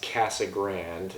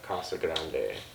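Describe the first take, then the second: First: It is said with an English pronunciation. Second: It is said with a Spanish pronunciation. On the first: This is how locals name the town. "most Arizonans will know this town as" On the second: This is the original Spanish phrase. "instead of"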